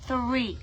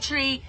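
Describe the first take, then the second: First: The word starts with a TH sound. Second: The word starts with a plain T sound. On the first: The speaker calls it right. "say three" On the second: The speaker calls it wrong. "Don't say tree"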